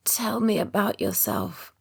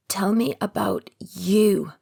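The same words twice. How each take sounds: First: Slow hoarse croak. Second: Slow, with "you" leaned on hard; stress on you. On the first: Exhausted patient croaking a request to Ben. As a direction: rasp it out weakly. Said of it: "I croak". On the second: Patient insisting Ben talk about himself, stress on "you". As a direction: press the final word "you". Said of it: "putting the emphasis on the final word". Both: A narrator's reading.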